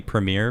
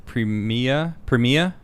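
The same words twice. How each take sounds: First: Said in the usual way. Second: PREMIA said the Aussie way, no final r; Australian pronunciation. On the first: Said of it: "in my English accent". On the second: Shown as a demonstration. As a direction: say Premia like an Australian, premeer-ah dropped to prem-ia. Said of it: "is how you pronounce".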